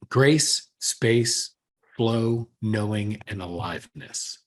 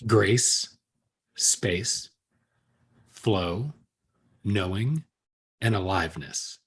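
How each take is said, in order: First: The list is said at normal speed. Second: The list is said more slowly.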